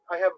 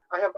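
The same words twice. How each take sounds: The two takes are said the same way.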